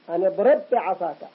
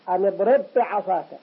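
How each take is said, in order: Both takes have the same delivery.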